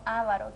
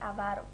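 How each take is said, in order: First: The stress is on the first syllable. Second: The stress is on the second syllable. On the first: The speaker calls it wrong. "y no avaro, que muchas veces tildamos la A inicial" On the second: The speaker calls it right. "la forma correcta es avaro"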